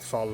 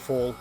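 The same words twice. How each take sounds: First: The word is said with a non-English pronunciation. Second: The word is said with an English pronunciation. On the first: The speaker calls it right. "we say it Fall" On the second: The speaker calls it wrong. "you English guys have ruined that word and say Fall"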